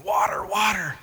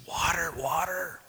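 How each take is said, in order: First: Higher, strained croak of a parched man. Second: Thirsty whisper of a man lost in the desert; desperate whisper. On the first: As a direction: croak it out after days without water. Man back days later, desperate. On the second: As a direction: rasp out water with no voice. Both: Acted.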